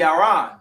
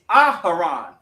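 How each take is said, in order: First: The name is said the Yiddish way. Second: The name is said with an added h sound. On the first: "if you really want to say it in the Yiddish" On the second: "in the actual ancient"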